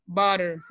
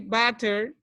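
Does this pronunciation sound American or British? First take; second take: American; British. First: The middle t is a quick r-like tap. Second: The middle t is a clear, crisp t. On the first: The speaker calls it right. "It's better to say butter... instead to have a T, you have a R" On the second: The speaker calls it wrong. "it's not sounds American. It sounds like England people"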